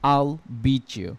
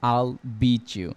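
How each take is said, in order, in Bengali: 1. 'I will' একটি দ্রুত একক সিলেবলে সংক্ষিপ্ত করে বলা হয়। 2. 'I will' একটি দ্রুত একক সিলেবলে সংক্ষিপ্ত করে বলা হয়।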